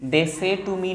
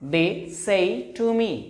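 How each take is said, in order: First: The vowel in 'say' is a plain 'eh'. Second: The vowel in 'say' glides from 'e' to 'ee'. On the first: The speaker calls it wrong. "दे से to me नहीं, फिर ये गलत हो जाएगा" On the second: The speaker calls it right. "हम बोलेंगे दे सही टू मी"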